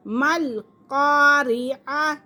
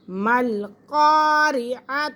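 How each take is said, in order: Both takes have the same delivery.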